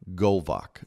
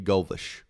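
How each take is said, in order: First: The name ends with a hard k sound. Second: The name ends with a soft sh sound. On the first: "I say that C H hard" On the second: "Could be Golvish"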